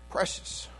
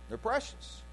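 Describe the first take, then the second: First: Breathy whisper of Precious, soft and unvoiced. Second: Said in the usual way. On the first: Shown as a demonstration. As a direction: whisper Precious to let it sink in.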